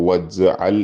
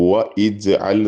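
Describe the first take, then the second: First: The 'i' vowel is dropped, linking 'wa' to 'j'al'. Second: The 'i' vowel after 'wa' is pronounced separately. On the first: The speaker calls it right. "വജ്അൽ എന്ന് പറഞ്ഞാൽ മതി" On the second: The speaker calls it wrong. "വ ഇജ്അൽ എന്ന് പറയേണ്ട"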